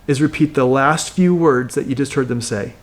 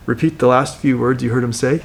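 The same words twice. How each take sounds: First: Said in the usual way. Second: Lower, curious question echoing the words back; curious mirroring tone. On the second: Shown as a demonstration. Coach demos mirroring a client's words with curious tone. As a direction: repeat it back as a gently puzzled question. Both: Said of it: "with a little bit of a curious tone".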